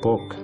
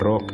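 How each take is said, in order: First: The word begins with a P sound. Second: The word begins with a rolled R sound. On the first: The speaker calls it wrong. "eikä pok" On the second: The speaker calls it right. "Rock on rock"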